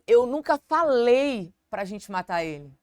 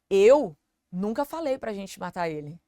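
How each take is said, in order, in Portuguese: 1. A palavra falei recebe a ênfase. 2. A palavra eu recebe a ênfase. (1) "A ênfase no falei" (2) "eu não falei, mas talvez você, ou talvez o Marcelo falou"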